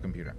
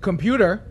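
First: The word is said flatly, in passing. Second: The word is said sharply, as an address. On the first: The speaker is talking about the computer. "oh, I got to go work on the computer, right?" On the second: The speaker is addressing the computer to give it an order. "there's a difference. There's an attention"

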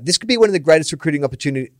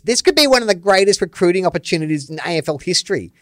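First: It is read in his natural voice. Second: It is read in a put-on mocking voice.

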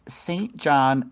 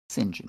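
First: The name is said the usual American way. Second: The name is said the way used outside America.

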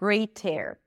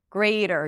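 First: The middle T is a crisp T sound. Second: The middle T is a soft flap like D. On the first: The speaker calls it wrong. "not greater" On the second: The speaker calls it right. "you pronounce the T as a flap D"

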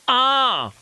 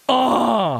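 First: It is said in his normal voice. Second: It is said in a deeper voice.

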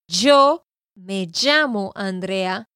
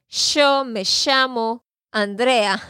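First: The double L sounds like a y. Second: The double L sounds like sh, Argentine style.

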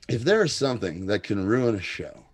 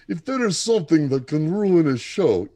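First: It is read in the speaker's normal voice. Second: It is read in a put-on Eastern European accent.

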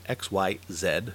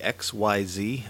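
First: The last letter is said the British way, 'zed'. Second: The last letter is said the American way, 'zee'.

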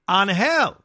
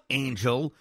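First: It is pronounced the Spanish way, not like English. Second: It is pronounced like the English word angel. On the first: The speaker calls it right. "It's pronounced Angel" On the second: The speaker calls it wrong. "It's not Angel like the team that lost Ohtani"

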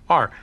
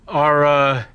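First: The word is said as one syllable. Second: The word is said as two syllables. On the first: The speaker calls it right. "would pronounce it correctly" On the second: The speaker calls it wrong. "pronounces it Ara"

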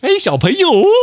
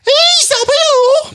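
First: It is said in a lower-pitched voice. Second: It is said in a higher-pitched voice.

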